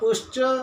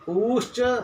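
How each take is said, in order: First: The u vowel is held for one beat. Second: The u vowel is held for two beats. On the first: "मैंने उश्च एक मात्रिक उकार का उच्चारण किया" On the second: "ऊश्च ऐसा कह करके द्विमात्रिक उकार का उच्चारण किया"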